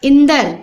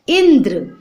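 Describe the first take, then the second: First: "इंदर" as in-dar; full vowel before r in "इंदर"; wrong pronunciation. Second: "इंद्र" as indr; fused dr ending in "इंद्र"; no vowel between d and r in "इंद्र"; correct pronunciation. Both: Shown as a demonstration. Wrong then right spelling, read aloud.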